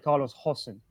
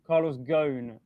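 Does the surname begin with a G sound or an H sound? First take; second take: H sound; G sound. First: The surname starts with H and sounds like Hossein. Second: The surname starts with G and rhymes with cone. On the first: This is how people in Lebanon say the name. "in Lebanon, they would say Carlos Hossein" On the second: This is how he has gone by his name through his career. "Ghosn rhymes with cone"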